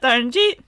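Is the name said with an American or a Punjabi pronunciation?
Punjabi. The name is said with a Punjabi pronunciation. The speaker calls it right. "for you Indian listeners, you may be thinking, isn't it"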